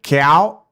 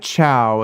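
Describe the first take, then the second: First: The first sound lies between ch and k. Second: The first sound is a clear ch. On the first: The speaker calls it right. "it's like cow, like that" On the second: The speaker calls it wrong. "it's not like chow"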